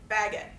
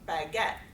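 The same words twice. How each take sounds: First: The stress is on the first syllable. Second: The stress is on the second syllable.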